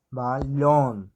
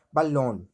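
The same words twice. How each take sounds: First: "Balón" slowed, with a long loud LÓN; lengthened stressed syllable. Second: Said in the usual way. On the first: Shown as a demonstration. Teacher showing how stress lasts, "Balón" with LÓN drawn out. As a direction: say "Balón" as ba, then a held LÓN. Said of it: "a gente vê a perduração dessa, é, pronúncia". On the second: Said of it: "a gente vê a perduração".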